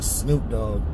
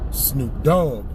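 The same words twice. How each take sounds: First: The stress falls on the word Snoop. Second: The stress falls on the word Dogg. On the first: The speaker calls it right. "they don't say [name]" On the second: The speaker calls it wrong. "They put the accent on the second part of his name. That shit sounds dumb"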